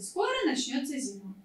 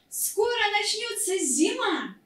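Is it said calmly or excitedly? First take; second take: calmly; excitedly. First: It is said calmly, with falling pitch. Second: It is said excitedly, as an exclamation.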